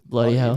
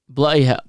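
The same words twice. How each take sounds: First: It is said in an Australian accent. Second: It is said in a British accent.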